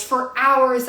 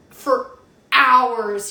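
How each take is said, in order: First: For hours said again, a little less loud; repeated for hours. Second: A pause, then hours punched loud; stress on hours. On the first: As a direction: echo For hours for emphasis. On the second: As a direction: lean hard on hours after a beat. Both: Shown as a demonstration.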